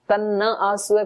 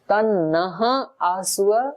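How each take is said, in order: First: The word ends without a final breathy h. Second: The word ends with a final breathy h. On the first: Do not bring the good thing to us. The speaker calls it wrong. "तन्ना बोल दिया तो उल्टा अर्थ हो जाएगा" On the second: Bring the good thing to us. The speaker calls it right. "विसर्ग है इसके आगे"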